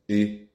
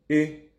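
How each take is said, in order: First: The syllable is said on a low pitch. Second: The syllable is said on a mid pitch. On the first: "tonalité basse" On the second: "tonalité médium"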